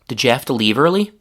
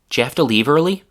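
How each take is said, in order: First: "Did" is kept before the blended j sound. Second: "Did" is mostly dropped, leaving a j sound.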